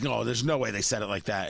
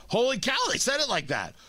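First: Low, dismissive doubt; disbelief. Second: Higher, astonished realization; stunned amazement. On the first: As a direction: scoff that it can't be true. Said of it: "You're like". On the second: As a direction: gasp it out as the shock sinks in. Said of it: "And then you're like". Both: Retold or imitated.

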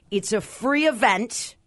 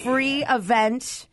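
First: Free drawn out slowly and stressed. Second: Free stretched very slowly; stress on free. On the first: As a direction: lean on free, slow and clear. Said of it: "Free, free, free". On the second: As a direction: lean hard on free, half speed. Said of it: "Those are words you just don't hear". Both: Shown as a demonstration.

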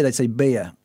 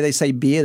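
First: "beer" drawn into two syllables, bee-ah; Western Australian beer. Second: Said in the usual way. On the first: Shown as a demonstration. Co-host showing how Western Australians talk, "beer" as bee-ah. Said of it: "with Western Australian people, the way they say beer".

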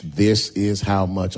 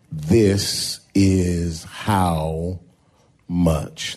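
First: Said in the usual way. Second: "This is how much" very slow, with a pause before "much"; dramatic title. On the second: Shown as a demonstration. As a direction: let "This is how ... much" hang, then drop on "much". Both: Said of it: "tag this text with this title".

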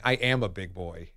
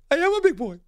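First: Quiet mock reply. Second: High, proud silly voice; goofy high big boy. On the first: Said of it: "hearing her voice and saying". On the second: Retold or imitated. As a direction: squeak it out like a proud kid. Performing [name]'s reply.

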